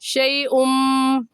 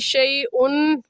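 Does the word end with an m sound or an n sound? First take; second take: m sound; n sound. First: The word ends with a merged m sound. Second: The word ends with a plain n sound. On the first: The speaker calls it right. "बल्कि क्या कहेंगे शई उम" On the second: The speaker calls it wrong. "शई उन कहना दुरुस्त नहीं है"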